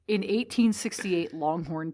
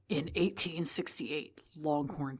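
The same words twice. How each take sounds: First: It is read in an ordinary speaking voice. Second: It is read in a dramatic put-on voice. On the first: The speaker calls it wrong. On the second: The speaker calls it right.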